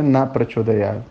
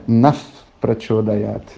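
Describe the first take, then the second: First: "na Prachodayat" said with a plain "na" and no F, as the wrong version; wrong pronunciation. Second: "Naf Prachodayat" slow, with a clear F closing "Naf"; correct pronunciation. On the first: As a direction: say "na" open, no final F before "Prachodayat". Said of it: "o mantra não é na Prachodayat". (pronúncia errada: "na Prachodayat" sem o F) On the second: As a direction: slowly land the F of "Naf" before "Prachodayat". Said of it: "é Naf Prachodayat". (pronúncia correta e lenta: "Naf Prachodayat" com o F bem marcado) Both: Shown as a demonstration.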